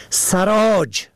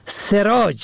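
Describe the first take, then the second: First: سراج said sarâj, short a first; سراج pronounced sarâj; fatha on first. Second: سراج said serâj, short e first; سراج pronounced serâj; kasra on first. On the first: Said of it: "به فتح اول". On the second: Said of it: "به کسر اول". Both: Shown as a demonstration.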